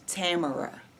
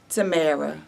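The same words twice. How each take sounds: First: The name rhymes with the word camera. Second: The name does not rhyme with camera. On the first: The speaker calls it right. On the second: The speaker calls it wrong.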